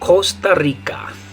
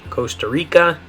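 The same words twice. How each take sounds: First: It is said with Spanish vowel sounds. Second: It is said with English vowel sounds. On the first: "In Spanish" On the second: "so in English"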